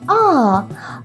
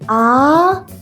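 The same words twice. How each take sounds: First: The pitch falls sharply downward. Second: The pitch rises like a question. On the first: "like when you suddenly fall down" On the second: "Raise your voice like a question"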